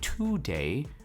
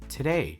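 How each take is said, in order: First: The first syllable has a full vowel. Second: The first syllable is reduced and weak. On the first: The speaker calls it wrong. "instead of saying today" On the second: The speaker calls it right. "I'm pronouncing it as today"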